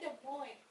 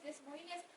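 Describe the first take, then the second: First: The final s sounds are left silent. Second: The final s sounds are pronounced aloud. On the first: The speaker calls it right. "S-nya silent kayak gitu" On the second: The speaker calls it wrong. "oh ini dibaca Des Moines ya sih"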